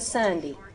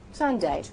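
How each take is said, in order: First: The last vowel is not a long A. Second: The last vowel is a long A sound. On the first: The speaker calls it wrong. "you would sound very uneducated if you said" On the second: The speaker calls it right. "make it a long A"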